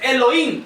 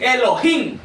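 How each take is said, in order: First: The middle h is silent. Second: The middle h is breathed aloud. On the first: The speaker calls it wrong. "no es Elohim" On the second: The speaker calls it right. "él es Elohim. Se fijan que la H sí tiene pronunciación"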